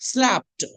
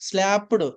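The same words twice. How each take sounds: First: The ending is a plain t sound. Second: The ending is an extra syllable. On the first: The speaker calls it right. "ఈడిని టాలా చెప్పాలండి" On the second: The speaker calls it wrong. "ఇలా చదవకూడదు"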